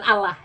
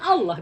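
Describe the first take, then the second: First: The L is light and the vowel is plain a. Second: The L is heavy and the vowel leans toward o. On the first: The speaker calls it wrong. "bukan Allah" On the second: The speaker calls it right. "semuanya Allah bilang"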